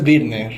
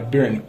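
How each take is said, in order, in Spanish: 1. Se dice con sonidos españoles, como 'beer-neh'. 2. Se dice con sonidos ingleses, como 'burn'. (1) "en México es Virne" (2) "realmente se pronuncia Byrne"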